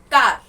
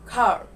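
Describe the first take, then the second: First: It is said in an Indian English accent. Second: It is said in an American English accent. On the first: "Indian accent" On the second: "In American accent"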